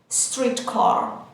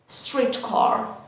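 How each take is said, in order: Both takes have the same delivery.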